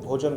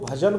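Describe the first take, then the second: First: The first vowel is a rounded 'o' sound. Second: The first vowel is an open 'a' sound.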